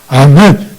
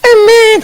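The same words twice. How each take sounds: First: It is said in a full, fervent voice. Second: It is said in a fawning, ingratiating voice. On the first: The amen comes from a spirit-filled heart. The speaker calls it right. "아주 성령 충만한" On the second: The amen is insincere flattery. The speaker calls it wrong. "간신배 같은 목소리로 그렇게 하면 안 되고"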